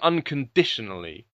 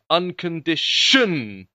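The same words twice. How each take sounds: First: The stress falls on the usual syllable. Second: The stress falls on an odd syllable. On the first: The speaker calls it right. "She doesn't sing unconditionally" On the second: The speaker calls it wrong. "she puts the stress on the most unnatural syllable in that word"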